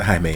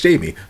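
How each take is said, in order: First: The name does not sound like English Jamie. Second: The name sounds like the English name Jamie. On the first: The speaker calls it right. "but we pronounce it Jaime in the series" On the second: The speaker calls it wrong. "I'm so American... I'm like, oh, it's Jamie"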